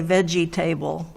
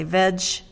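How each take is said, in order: First: "veggie table" split into veggie plus table, the wrong way. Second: "vegetables" said quickly as three syllables, vej-tuh-bles; correct vegetables. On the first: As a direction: say "veggie table" as two words, like a table. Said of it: "we don't say veggie table". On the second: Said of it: "We say vegetables". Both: Shown as a demonstration.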